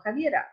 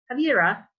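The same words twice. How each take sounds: First: Javiera with a Spanish tapped R; Spanish-style Javiera, light tap before the last vowel; Spanish accent. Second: Javiera with an American R; Anglicized Javiera, rounded American R; American accent. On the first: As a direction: correct the name to Spanish Javiera. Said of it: "They say, "No, Javiera". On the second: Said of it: "how would an American say". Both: Shown as a demonstration.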